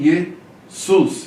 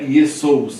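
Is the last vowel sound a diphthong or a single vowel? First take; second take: single vowel; diphthong. First: The last vowel is a single plain u. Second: The last vowel is a gliding o-u diphthong. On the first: The speaker calls it right. "e sim Jesus" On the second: The speaker calls it wrong. "Não é Jesous"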